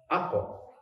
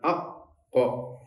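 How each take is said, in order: First: The k sound is released at once, single. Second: The k sound is held and doubled. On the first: The speaker calls it right. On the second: The speaker calls it wrong. "Jangan ak kok. ... seakan-akan ada tasdid"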